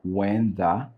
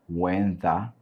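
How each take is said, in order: No difference in how they are said.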